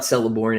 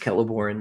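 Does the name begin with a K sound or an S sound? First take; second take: S sound; K sound. First: The name begins with an S sound. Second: The name begins with a K sound. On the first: The speaker calls it wrong. "It's not Celeborn" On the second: The speaker calls it right. "it's Celeborn. The C's never the C's never make S sounds"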